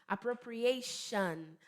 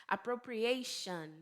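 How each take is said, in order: No difference in how they are said.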